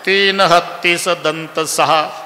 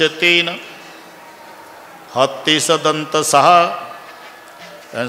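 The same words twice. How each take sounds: First: There is no pause right after 'teen'. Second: There is a pause right after 'teen'. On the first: Three elephants have six teeth. "एका हत्तीला दोन झाले सहा तीन" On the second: The monkey has three tails and the elephant six teeth. "वानरास पुच्छ तीन तीन शब्दाचं वानर"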